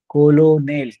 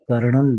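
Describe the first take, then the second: First: It has three syllables with an 'l' in the middle. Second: It has two syllables with an 'r' sound. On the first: This is how it looks when written. "कोलोनेल असं दिसतं" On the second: This is how it is spoken. "बोलताना मात्र कर्नल"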